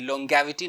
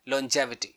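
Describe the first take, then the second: First: The g is said as a hard g. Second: The g is said as a j sound. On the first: The speaker calls it wrong. "ग नहीं, longevity नहीं बोलेंगे" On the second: The speaker calls it right. "ये जी जॉ pronounce करेंगे"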